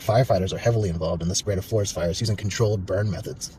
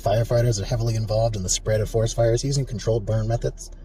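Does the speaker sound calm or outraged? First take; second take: outraged; calm. First: It is said in an outraged, indignant tone. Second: It is said in a calm, neutral tone. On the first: The firefighters are doing something scandalous. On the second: It is a neutral statement of fact.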